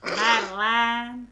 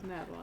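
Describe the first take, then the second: First: It is said in a nasal Southern drawl. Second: It is said in a neutral, everyday accent.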